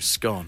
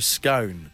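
First: The vowel rhymes with gone, short and open. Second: The vowel rhymes with cone, long and rounded. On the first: This is the northern English and Scottish way. "rhyme it with the word gone" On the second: This is the southern English and Irish way. "rhyme it with cone"

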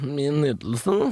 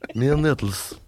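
First: It is said in a plain standard accent. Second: It is said in a Trøndelag dialect accent.

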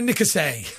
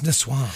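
First: It is said with an extra middle syllable, nicassee. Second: It is said with two syllables, niçoise. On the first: The speaker calls it wrong. "she'd been saying it wrong" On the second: The speaker calls it right. "It's Nassau"

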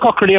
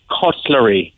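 First: The word is said quickly in running speech. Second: The word is said slowly, syllable by syllable. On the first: The speaker calls it wrong. "But if in the general conversation" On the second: The speaker calls it right. "I can say it if I break it down and say it slowly"

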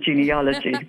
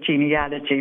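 First: The third syllable sounds like 'ol'. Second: The third syllable sounds like 'al'. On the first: The speaker calls it wrong. "a lot of people I hear pronounce it genealogy" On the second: The speaker calls it right. "I'm glad to hear you pronounce it genealogy"

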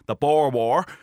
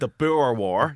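First: It is said in a Dublin accent. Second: It is said in a standard accent. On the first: "as they call it in Dublin, in the Dublin accent" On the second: "But it's definitely the Boer War"

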